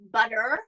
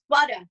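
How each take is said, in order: First: The final R is pronounced at the end. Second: The final R is dropped with a long vowel. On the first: "but here it's" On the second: "a New York accent, because when there's an R at the end of the word, we don't pronounce"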